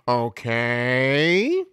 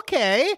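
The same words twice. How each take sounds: First: It is said in a lower, disapproving tone. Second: It is said in a higher, approving tone. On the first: The listener disapproves of the unhealthy food. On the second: The listener approves of the healthy food.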